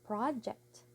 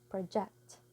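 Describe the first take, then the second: First: The stress is on the first syllable. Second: The stress is on the second syllable. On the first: It is used as a noun. "nouns, we have project" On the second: It is used as a verb. "verb project"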